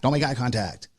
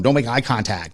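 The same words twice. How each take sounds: First: Repeated much softer, under the breath; softer echo of the thought; quiet repeat. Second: Said in the usual way. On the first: Retold or imitated. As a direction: drop the level as if to yourself. Inner voice avoiding the homeless.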